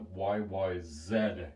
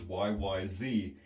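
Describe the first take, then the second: First: The last letter is said as zed. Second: The last letter is said as zee. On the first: "when they pronounce it, they call it" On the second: "The letters Y Y Z"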